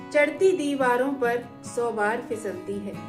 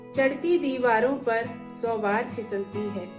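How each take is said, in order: Both takes have the same delivery.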